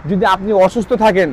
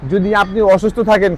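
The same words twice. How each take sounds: The two takes are said the same way.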